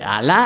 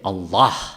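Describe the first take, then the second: First: The word is said the Spanish way. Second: The word is said the Arabic way.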